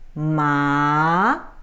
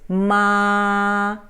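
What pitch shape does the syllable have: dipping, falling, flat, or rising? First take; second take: rising; flat. First: The pitch rises through the syllable. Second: The pitch stays level throughout. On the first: "But if it goes up" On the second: "if you put it a flat tone"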